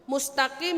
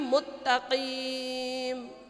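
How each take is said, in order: First: The word is pronounced cleanly, sounds in place. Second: The word is distorted, sounds out of place. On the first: The speaker calls it right. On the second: The speaker calls it wrong.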